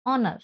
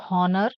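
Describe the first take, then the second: First: "honor" as on-uh, silent h; correct pronunciation. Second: "honor" with a sounded h; mistaken pronunciation. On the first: Teacher corrects the word for students, "honor" without h. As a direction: start "honor" straight on the vowel. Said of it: "It is". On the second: Teacher shows students what to avoid, "honor" with audible h. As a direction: breathe out the h in "honor". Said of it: "It is not honor". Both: Shown as a demonstration.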